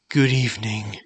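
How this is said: It is said in a tired, exhausted tone. It suits someone worn out at day's end. "This tone shows exhaustion"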